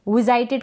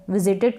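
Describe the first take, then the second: First: विजिटेड misread with a long "eye", vi-ZY-ted; wrong pronunciation. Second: Said in the usual way. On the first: Shown as a demonstration. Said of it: "इसको भी विजिटेड करके ना पढ़े". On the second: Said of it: "विजिटेड का होता है".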